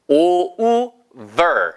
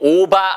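First: It is said with English sounds, like 'over'. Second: It is said with Korean-style sounds, like 'oba'. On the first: The speaker calls it right. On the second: The speaker calls it wrong.

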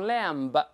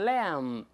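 First: The final b is pronounced. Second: The final b is silent. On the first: The speaker calls it wrong. "不能读lamb" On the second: The speaker calls it right. "都是lamb"

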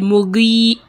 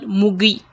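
First: The final vowel is held long. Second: The final vowel is cut short. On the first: The speaker calls it right. "the ya there is a mud ya" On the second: The speaker calls it wrong. "and not mugi"

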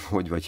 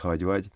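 First: The first word has a rounded 'o' vowel. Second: The first word has an open 'a' vowel. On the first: "o betű" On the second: "o betű helyett a betűt mond"

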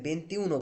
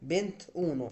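First: The final vowel of venti is kept. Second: The final vowel of venti is dropped. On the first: The speaker calls it wrong. "বেন্তিউনো বলা যাবে না" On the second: The speaker calls it right. "কি বলতে হবে?"

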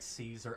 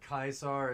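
First: The name is said in the English-style way. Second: The name is said in the Latin-style way. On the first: The speaker calls it wrong. "even Joshua says it like Caesar" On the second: The speaker calls it right. "Kaisar is actually the correct way to say it"

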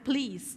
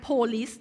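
First: The word is squeezed into almost one syllable. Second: The word is said with two full syllables. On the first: The speaker calls it right. "อ่านว่า" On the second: The speaker calls it wrong. "ไม่อ่านว่า"

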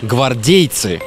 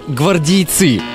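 First: The stress falls on the second syllable. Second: The stress falls on a syllable other than the second. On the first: The speaker calls it right. "правильно ставить ударение на второй слог" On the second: The speaker calls it wrong. "Многие ошибочно полагают"

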